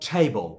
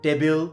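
First: The t is aspirated, like Bengali ঠ. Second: The t is unaspirated, like Bengali ট. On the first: The speaker calls it right. "এটাকে ঠয়ের মতো উচ্চারণ করবেন" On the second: The speaker calls it wrong. "আমরা বলি কি টেবিল"

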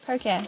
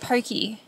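First: The word ends with an 'ay' sound. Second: The word ends with an 'ee' sound. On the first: The speaker calls it right. "but it's Pocare" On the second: The speaker calls it wrong. "I've been saying it wrong. I was calling it Pokey"

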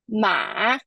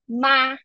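First: The pitch dips low and then rises. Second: The pitch stays high and level throughout. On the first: "Ma is a falling and rising tone" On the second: "first tone, ... Ma is a high and level pitch"

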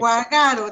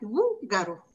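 First: The stress is not on the first syllable. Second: The stress is on the first syllable. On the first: The speaker calls it wrong. "Guagaro, dijera, si no" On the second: The speaker calls it right. "suena fuerte en la primera sílaba"

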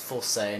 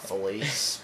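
First: The name sounds like 'full-say'. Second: The name sounds like 'fe-lease'. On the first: The speaker calls it right. "That's full say" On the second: The speaker calls it wrong. "not Felice"

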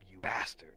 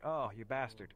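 First: It is said in a harsh, hostile tone. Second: It is said in a light, playful tone.

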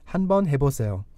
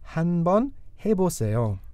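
First: The phrase is said at a quicker pace. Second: The phrase is said at a slower pace.

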